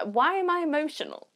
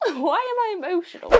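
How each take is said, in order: First: Said in the usual way. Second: Laughing at herself. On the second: Real, not acted. Moved by a gift box, laughing at herself. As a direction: laugh through "Why am I emotional?", a little higher.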